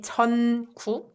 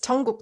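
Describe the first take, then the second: First: The first syllable ends in a clear n sound. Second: The first syllable ends in an ng sound. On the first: "you can enunciate it and say 전국" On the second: "if you speak it fast, it's 전국"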